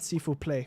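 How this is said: It has an exaggerated American accent. "And I also exaggerated accent there"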